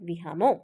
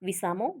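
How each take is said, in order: First: The middle consonant is an 'h' sound. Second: The middle consonant is an 's' sound. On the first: This is the Charotari dialect form. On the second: This is the standard form.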